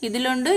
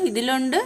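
No difference in how they are said.

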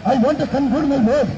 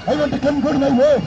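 Both takes have the same delivery.

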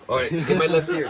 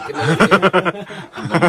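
First: Said in the usual way. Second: Drawn out through laughter; slow laughing repeat. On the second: Real, not acted. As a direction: laugh while slowly repeating it.

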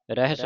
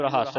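First: ਰਹਿਸ said ra-his, short light ending; single light s. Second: ਰਹੱਸ said ra-hass, with a heavy s; wrong doubled s. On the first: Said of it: "ਰਹਿਸ ਪੜ੍ਹਨਾ". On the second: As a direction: stress the end of ਰਹੱਸ on a double s. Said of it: "ਇਹਨੂੰ ਰਹੱਸ ਨਹੀਂ ਪੜ੍ਹਨਾ". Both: Shown as a demonstration.

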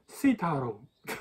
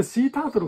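First: "シータロウ" run together like "Tarō"; "シータロウ" with the final syllables slurred, English-style; smooth English pronunciation. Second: Said in the usual way. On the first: Shown as a demonstration. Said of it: "めちゃめちゃ滑らかな発音だったら". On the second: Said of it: "俺、シータートルかと思っとって".

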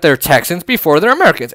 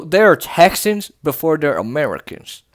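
First: Said in the usual way. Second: Put-on Texan accent. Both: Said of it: "always go into that accent".

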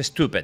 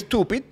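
First: "stupid" said as "STU-pet", low and falling; mock-correct pronunciation. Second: "stupid" said as written, ending in "-pid"; "stupid" sounded out like its spelling; spelling pronunciation. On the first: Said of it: "pero se pronuncia stupid". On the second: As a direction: say "stupid" with a clear final "id". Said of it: "Se escribe stupid". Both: Shown as a demonstration.

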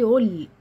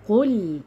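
First: "قل" with the q weakened to "ul"; dropped qaf. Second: "قل" with a strong back-of-throat q; clear deep qaf. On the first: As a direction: lose the qaf in "قل", as a mistake. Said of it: "ما حدش يقول لي". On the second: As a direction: sound the qaf fully in "قل". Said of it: "لا، فين القاف؟". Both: Shown as a demonstration.

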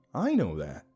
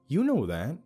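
First: "I" pitched up, then falling; stress on "I". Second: "You" pitched high, then falling; stress on "You". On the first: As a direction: hit the word "I". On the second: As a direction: hit the word "You". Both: A narrator's reading. Contrast of you and I.

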